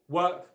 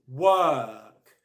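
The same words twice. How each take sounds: First: The vowel is cut short. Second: The vowel is held long. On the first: The speaker calls it wrong. "It's not work" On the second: The speaker calls it right. "It's work ... it's long"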